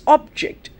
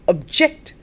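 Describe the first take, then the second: First: The stress is on the first syllable. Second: The stress is on the second syllable. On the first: It is used as a noun, meaning a thing. "we talk of subject and object" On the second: It is used as a verb, meaning to disagree. "The verb"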